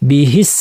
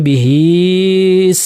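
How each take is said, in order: First: The vowel in hi is kept short. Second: The vowel in hi is stretched long. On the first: The speaker calls it right. "হিস বলে ফেললাম টান ছাড়া" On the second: The speaker calls it wrong. "কি যদি বলে বিহিস সিহরু, এটা ভুল হবে"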